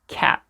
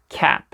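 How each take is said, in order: The two takes are said the same way.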